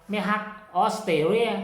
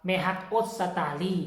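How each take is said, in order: First: แม่ฮักออสเตรเลีย said the Isan way, every syllable of ออสเตรเลีย spelled out; Isan pronunciation. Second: แม่ฮักออสตาลี said the Lao way, ออสตาลี short with no ร; Lao pronunciation. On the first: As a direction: say แม่ฮักออสเตรเลีย as an Isan speaker would. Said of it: "คันสำเนียงอีสานต้องว่า". (ออกเสียง แม่ฮักออสเตรเลีย แบบสำเนียงอีสาน) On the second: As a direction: give it the Lao form แม่ฮักออสตาลี. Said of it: "ภาษาลาวก็ว่า". (ออกเสียง แม่ฮักออสตาลี แบบภาษาลาว) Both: Shown as a demonstration.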